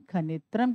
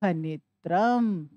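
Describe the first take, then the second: First: Said in the usual way. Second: खनित्रम drawn out slowly, each syllable spaced; slow reveal of the word. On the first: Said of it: "खनित्रम किसको कहते हैं?". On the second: Shown as a demonstration. Teacher to students revealing the joined word, slowly. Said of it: "तो क्या बना पूरा शब्द?".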